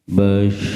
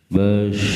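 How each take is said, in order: The two takes are said the same way.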